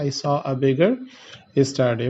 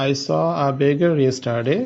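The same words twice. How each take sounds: First: Said in the usual way. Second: Very slow, every word set apart; slow example read. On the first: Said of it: "আমি বললাম যে". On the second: Shown as a demonstration. Teacher dictating an example sentence, very slow. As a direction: dictate it so students can follow. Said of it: "পরেরটাতে আমরা চলে যাচ্ছি".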